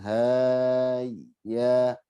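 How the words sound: The syllables ha and ya are broken apart. The speaker calls it wrong. "Jangan haya. / ha dengan ya masih terputus"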